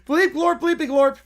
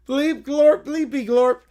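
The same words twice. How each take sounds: First: Higher, punchier alien bleeps; alien gibberish voice. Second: Hammed-up alien bleeps, a bit louder; alien gibberish voice. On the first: Pretend. Alien sealing his perfect edition, higher. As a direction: bounce it up like a proud alien. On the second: Alien showing off his acting with bleeps. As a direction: say it like a cheesy movie alien. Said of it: "Notice the McClure inflection?".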